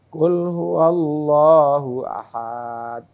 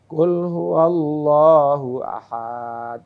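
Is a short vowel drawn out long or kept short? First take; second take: long; long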